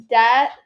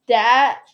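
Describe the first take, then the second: The two takes are said the same way.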